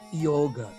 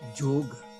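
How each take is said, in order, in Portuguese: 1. A palavra começa com som de Y. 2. A palavra começa com som de J. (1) "eles não falam yoga" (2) "eles falam yoga"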